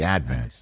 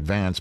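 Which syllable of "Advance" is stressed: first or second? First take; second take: first; second. First: The stress is on the first syllable. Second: The stress is on the second syllable. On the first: This is how locals say it. "in Staten Island, we always put the accent on the first syllable" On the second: This is how an outsider would say it. "One would look at that erstwhile publication and call it the Staten Island Advance"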